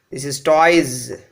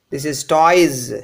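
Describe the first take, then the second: The two takes are said the same way.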